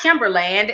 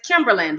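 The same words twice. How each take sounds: First: The last syllable is a full, clear 'land'. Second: The last syllable is reduced, like 'lund'. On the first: The speaker calls it wrong. "So it's not Kimberland" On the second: The speaker calls it right. "it's Kimberland"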